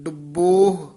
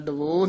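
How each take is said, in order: First: The b sound is held tight and doubled. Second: The b sound is short and single. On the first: The speaker calls it right. "ਥੋੜਾ ਜਿਹਾ ਕਸ ਕੇ ਬੋਲਣਾ" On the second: The speaker calls it wrong. "ਡਬੋਹ ਨਹੀਂ ਕਹਿਣਾ"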